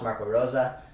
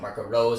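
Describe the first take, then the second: First: The surname is said the other way. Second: The surname is said the English way. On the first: "when I hear him mentioned a lot, it's Marco Rosa" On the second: "I'm English, so I've been pronouncing it Marco Rose"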